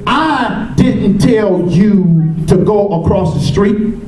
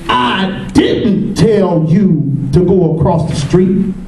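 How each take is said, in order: First: The word "I" carries the main stress. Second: The word "didn't" carries the main stress. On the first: Someone else may have told you. "That means I didn't do it, but somebody else may have" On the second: The speaker denies telling you. "That means I did tell you"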